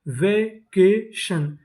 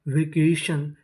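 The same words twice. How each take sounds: First: vacation very slow as वे, के, शन; syllable by syllable. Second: Said in the usual way. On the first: Shown as a demonstration. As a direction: sound out vacation with gaps between syllables. Teacher sounding out new word.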